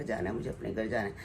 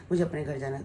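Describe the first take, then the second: First: Low, soft plaintive repeat of mother's wish; a hint of an ailing mother pleading to go home; imitating mother. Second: Said in the usual way. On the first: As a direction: echo mother's longing quietly, pitched lower. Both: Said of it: "यही कह रही थी कि".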